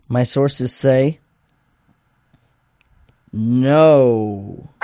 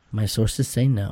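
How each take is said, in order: First: Slow setup, long pause, big drawn-out NO; suspenseful reveal. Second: Said in the usual way. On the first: Acted. Reading the Magic Eight Ball's verdict, suspenseful reveal. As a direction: hold the answer back, then boom a long "no".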